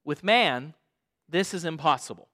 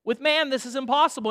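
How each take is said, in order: First: Calm scripture voice. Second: Faster, higher, pushing each word; preacher hammering "impossible" quickly; brisk emphatic restatement. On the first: Acted. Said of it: "Jesus looked at them and said". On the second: Shown as a demonstration. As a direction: drive the point home to the congregation. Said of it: "restating the quoted line".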